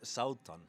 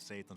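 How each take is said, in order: First: The name is said with its Icelandic sounds. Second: The name is said with simplified English sounds. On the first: "in Icelandic, it's Sautan" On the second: "most people don't have that second letter, so we end up with Satan"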